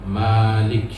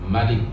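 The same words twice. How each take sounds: First: The first vowel is held long. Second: The first vowel is kept short. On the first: It means the one who owns and controls. "Manya panjang" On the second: It means king. "Tidak, tidak panjang"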